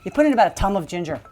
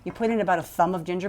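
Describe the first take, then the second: First: Thumb begins with a plain 't' sound. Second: Thumb begins with a normal 'th' sound.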